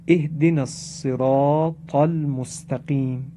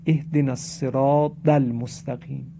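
First: الصراط with a heavy emphatic ط, recited slowly; measured recitation, full heavy T in الصراط; correct emphatic ط. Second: الصراط said with a D sound for the ط; plain-paced verse, الصراط turned into "as-siraad"; ط mispronounced as dal. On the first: Shown as a demonstration. Teacher models the prayer verse for learners, الصراط with emphatic ط. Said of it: "با تاء مؤلفه". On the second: Retold or imitated. Teacher imitates some worshippers' mistake, الصراط with a D for ط.

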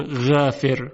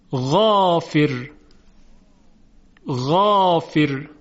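First: غافر with a light, flat Persian a; wrong thin ghain. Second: غافر slow, with a thick, full aa; heavy ghain. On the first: Teacher showing students the incorrect thin vowel. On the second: Teacher modeling the emphatic ghain for students. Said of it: "کلمهٔ دیگر". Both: Shown as a demonstration.

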